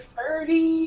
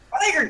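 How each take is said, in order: First: It is said with two syllables, like ferdy. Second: It is said like the ordinary word fire. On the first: The speaker calls it wrong. "nobody can pronounce the fact that it's just fire with an alternative spelling. It's like" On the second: The speaker calls it right. "No! Fire, damn it!"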